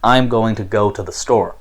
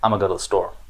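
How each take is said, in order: First: Every word is said fully and carefully. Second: Words are squeezed together with weak uh vowels. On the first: It is the standard, formal way to say it. "standard form English American dialect" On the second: It is a casual way of talking to friends or family. "if I was speaking in an informal sense"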